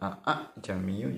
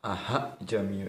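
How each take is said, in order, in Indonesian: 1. Suku kata kedua dimulai dengan hamzah penuh. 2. Suku kata kedua dimulai dengan bunyi h penuh. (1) "dibaca aa jamiu juga tidak benar" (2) "Aha jamiu itu tidak benar"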